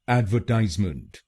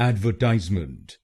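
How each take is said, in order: The two takes are said the same way.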